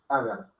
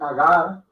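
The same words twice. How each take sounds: First: Both A vowels are said short. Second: One of the A vowels is drawn out long. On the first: The speaker calls it right. "Porque las dos A son cortas" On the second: The speaker calls it wrong. "No es agar ni agar"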